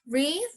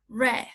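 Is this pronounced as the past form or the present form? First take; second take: present form; past form. First: It is pronounced as the present-tense form. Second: It is pronounced as the past-tense form. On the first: "the present or the base form of the verb read is like read" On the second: "in past you have to say read"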